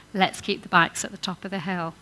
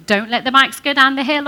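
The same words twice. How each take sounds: First: Calm, friendly invitation; "Let's keep the bikes at the top of the hill" said gently; positive suggestion. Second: Louder, higher sharp warning; "Don't let the bikes go down the hill" snapped out loud; negative command. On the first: Preacher contrasting the positive phrasing, calm and friendly. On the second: Preacher contrasting the negative phrasing, loud and sharp. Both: Shown as a demonstration. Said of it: "Different thing".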